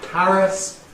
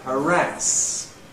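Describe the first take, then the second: First: The stress is on the first syllable. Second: The stress is on the second syllable. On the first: Older people say it this way. "Older people with initial stress" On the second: Younger people say it this way. "younger people with stress on the second syllable"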